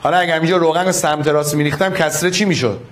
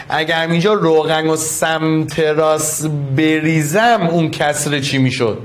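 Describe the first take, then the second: First: Quick repeated question. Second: Slow and careful, giving students time to think; slow deliberate question. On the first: Teacher repeats the question to the class quickly. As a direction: rattle the question off fast. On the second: Teacher to the class, posing the oil question slowly. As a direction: draw the question out slowly, each word spaced. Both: Shown as a demonstration.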